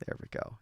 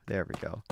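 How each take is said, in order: First: Whispered. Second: Said in the usual way. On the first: Real, not acted. Repeats phrase, first whispered.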